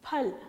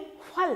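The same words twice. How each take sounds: First: It begins with an aspirated p sound. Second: It begins with an f sound. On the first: The speaker calls it right. "फ से फल" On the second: The speaker calls it wrong. "नुक्ता लगा हुआ है, अब हम इसे बोलेंगे"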